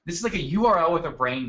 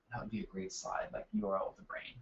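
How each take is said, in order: First: Said in the usual way. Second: Very soft, low aside to himself; muttered aside. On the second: Real, not acted. Webinar host noting a slide idea to himself, muttered very softly. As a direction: murmur it under your breath, thinking aloud.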